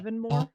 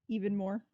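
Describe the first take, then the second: First: The name sounds like one single word. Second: The name sounds like two separate words. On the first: The speaker calls it right. "I'm going to pronounce it Evanmore because that doesn't sound like two words" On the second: The speaker calls it wrong. "Which sounds terrible"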